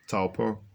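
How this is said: The name is said with a Maori pronunciation.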